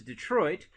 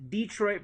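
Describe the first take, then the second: First: Said in the usual way. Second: "Detroit" as DEE-troit; Hoosier pronunciation. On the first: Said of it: "they call it Detroit". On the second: Shown as a demonstration. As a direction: stress a long DEE in "Detroit". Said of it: "another Hoosier pronunciation".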